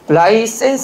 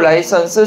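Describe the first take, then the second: First: The third syllable has the vowel 'e'. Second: The third syllable has the vowel 'eo'. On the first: The speaker calls it wrong. "아니고" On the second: The speaker calls it right. "아니고 라이선스"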